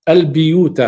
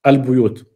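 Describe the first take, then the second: First: "البيوت" pronounced "biyūt", with an i after the b; kasra on the ba. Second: "البيوت" pronounced "buyūt", with a u after the b; damma on the ba. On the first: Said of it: "بكسر الباء". ("البيوت" بكسر الباء: البِيوت) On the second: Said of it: "والباقون بالضم على الأصل". ("البيوت" بضم الباء: البُيوت) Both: Shown as a demonstration.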